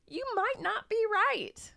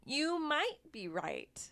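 First: High, slow. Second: Secret hushed whisper, slowly. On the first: Teasing contrast, then whispers. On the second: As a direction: let it slip out in a whisper. Teasing contrast with previous line. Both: Shown as a demonstration.

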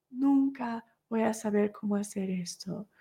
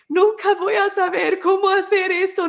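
First: Resigned repeat. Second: Much higher, anguished "Nunca voy a saber cómo hacer esto"; despairing cry. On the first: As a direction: let the despair sink into a soft murmur. Mother repeats the thought, fading. (repetición resignada, suave y baja) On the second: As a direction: let it break out high and desperate. New mother's despairing thoughts. (grito angustiado, mucho más agudo) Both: Retold or imitated.

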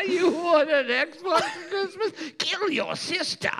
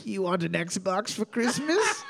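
First: Laughing. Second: Slow breathy temptation whisper; sweet nothings whisper. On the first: Replays whisper line, laughing high. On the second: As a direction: coax him in a whisper. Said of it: "whispering sweet nothings to him". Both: Pretend.

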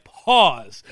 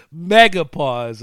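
First: Said in the usual way. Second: Slow, drawn-out mega pause. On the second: Shown as a demonstration. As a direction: stretch every sound of mega pause out long.

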